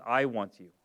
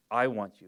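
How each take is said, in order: First: Tender reassurance. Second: The same gentle, sincere words, said again; tender reassurance repeated. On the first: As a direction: say it gently as the husband. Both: Retold or imitated. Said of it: "he comes in and says".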